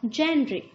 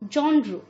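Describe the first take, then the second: First: It begins with a 'jen' sound. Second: It begins with a 'jon' sound. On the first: The speaker calls it wrong. "Not जैनरे" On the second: The speaker calls it right. "The right pronunciation is जॉनरू"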